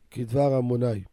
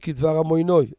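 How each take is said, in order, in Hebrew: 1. המילה האחרונה מסתיימת בצליל 'ai'. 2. המילה האחרונה מסתיימת בצליל 'oi'.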